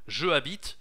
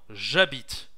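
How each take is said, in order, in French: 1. La voyelle de je est conservée devant habite. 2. La voyelle de je est supprimée devant habite. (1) "Deux voyelles ensemble. Je habite, non" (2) "j'habite, ok"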